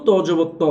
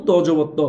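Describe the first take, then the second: The two takes are said the same way.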